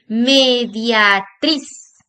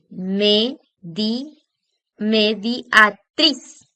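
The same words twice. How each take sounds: First: Mediatriz drawn out very slowly, louder on -triz; stress on TRIZ. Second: Mediatriz split into slow separate syllables, ending on TRIZ; syllable-by-syllable stress. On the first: Teacher giving an example word, elongated stress on -triz in mediatriz. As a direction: stretch mediatriz as one word, landing hard on TRIZ. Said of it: "nos damos cuenta que en la última sílaba". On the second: Teacher asking students to look, syllable-by-syllable mediatriz with final stress. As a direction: sound out "medi-", then me-di-a-TRIZ piece by piece. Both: Shown as a demonstration.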